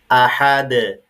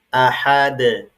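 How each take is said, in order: Both takes have the same delivery.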